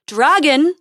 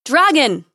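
First: Louder, higher rising call; calling again. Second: Loud heroic call into the dark. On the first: Prince calling the dragon a second time, louder rising call. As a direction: call out even harder this time. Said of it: "he called again". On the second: Prince calling the dragon into the dark hall, loud call. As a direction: call out boldly into the empty hall. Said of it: "he called into the darkness". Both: A narrator's reading.

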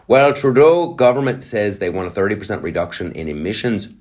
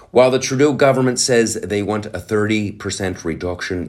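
First: Said in the usual way. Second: Lightly Irish news read; a touch of Irish lilt on the read; Irish accent. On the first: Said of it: "but I'm doing Ireland". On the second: Acted. Reading the article to viewers, light Irish accent. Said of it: "I'm doing Ireland".

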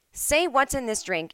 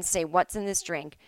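First: Higher, slow, stressed SAY like a 1930s film; old movie line. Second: Said in the usual way. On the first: Shown as a demonstration. Explaining a classic film phrase, tipsy old-movie delivery. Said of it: "is a well-used phrase". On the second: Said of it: "I think that the line".

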